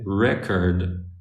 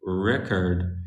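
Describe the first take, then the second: First: The stress is on the first syllable. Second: The same.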